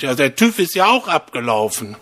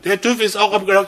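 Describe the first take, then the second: First: Said in the usual way. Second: Higher and quicker, calling out to her; raised, quick call. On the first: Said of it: "und sagt zu dem Mann". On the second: Retold or imitated. Husband repeats it to his hard-of-hearing wife, higher and hurried. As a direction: call it to someone who can't hear well, briskly. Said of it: "sagt der Mann".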